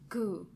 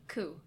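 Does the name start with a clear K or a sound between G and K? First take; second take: between; clear K. First: It starts with a sound between G and K. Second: It starts with a clear K sound.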